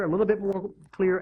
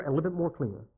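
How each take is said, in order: First: Said in the usual way. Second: Softer, fading. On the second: Shown as a demonstration. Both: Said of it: "getting a little bit more clear".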